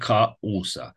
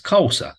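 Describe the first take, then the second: First: The a and u are said as separate syllables. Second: The a and u blend into one syllable. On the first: The speaker calls it wrong. "Dar nu zic causa" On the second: The speaker calls it right. "Am zis causa"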